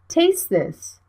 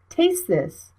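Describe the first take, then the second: No difference in how they are said.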